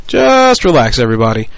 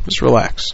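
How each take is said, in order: First: Loud and higher pitched relax. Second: Said in the usual way. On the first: Real, not acted. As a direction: shout Just relax up high.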